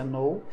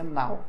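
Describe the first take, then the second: First: "know" pronounced "noh", no K; O sound in know. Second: "now" pronounced "nau"; AU sound in now. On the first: Teacher recapping know versus now, long-O pronunciation. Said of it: "aqui você pronuncia know". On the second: Teacher recapping now versus know, open AU pronunciation. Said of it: "o agora você pronuncia now". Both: Shown as a demonstration.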